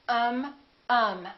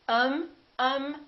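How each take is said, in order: No difference in how they are said.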